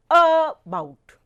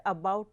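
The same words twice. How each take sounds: First: "about" with a long, loud A and a weaker BOUT; mis-stress "about" on its first syllable, AAA-bout; wrong first-syllable stress. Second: "about" with BOUT hit louder and longer; stress on second syllable. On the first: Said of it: "We do not pronounce it at". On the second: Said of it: "We pronounce the word about as". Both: Shown as a demonstration.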